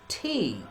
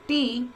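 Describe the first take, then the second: First: The T sound is made standard English-style. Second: The T sound is made Pakistani-style. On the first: The speaker calls it right. "it is T" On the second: The speaker calls it wrong. "it is not T"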